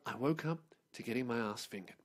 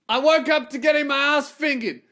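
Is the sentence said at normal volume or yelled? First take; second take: normal; yelled. First: The sentence is said at normal volume. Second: The sentence is yelled very loudly.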